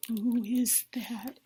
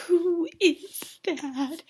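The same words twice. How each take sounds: First: Soft, breathed, very slow; mock awed hush. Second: Higher, extremely drawn-out question; mock dramatic awe. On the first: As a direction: whisper it in pretend amazement. Imitates awestruck date spotting singer. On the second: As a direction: stretch every word in rising amazement. Repeats question, more dramatic.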